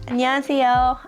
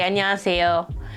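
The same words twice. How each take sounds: First: It is said in a raised, higher, cute voice. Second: It is said in a natural, lower voice. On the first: "I will literally raise my voice to sound higher because it sounds cuter" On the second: "in my natural voice"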